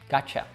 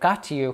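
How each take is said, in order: First: The final vowel is reduced to a schwa. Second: The final vowel is a full 'you'.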